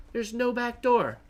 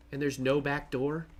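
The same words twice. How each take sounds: First: There's no back door. pitched high, falling on "door"; realizing he is locked out; dismayed answer. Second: And there's no back door? with a rising tune; checking for a way in; hopeful question. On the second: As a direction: ask "no back door?" still hoping, voice rising at the end. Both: Real, not acted.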